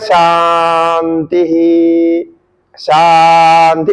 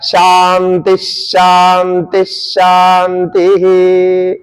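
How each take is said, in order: First: Each word ends in a separate slow 'hi' sound. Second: The ending merges into a half 'sh' sound. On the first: It expresses a calm, peaceful feeling. The speaker calls it wrong. "तो वो बड़े शांति ही शांति ऐसा बोलते हैं। नहीं" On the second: It follows the rules for reciting Vedic mantras. The speaker calls it right. "तो उसमें ऐसा होता है शांति शांति शांति ही, ऐसा बोलना होता है"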